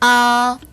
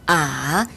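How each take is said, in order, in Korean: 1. 음높이가 높은 채로 평평하게 유지됩니다. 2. 음높이가 낮게 내려갔다가 올라갑니다. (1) "일 성" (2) "삼 성"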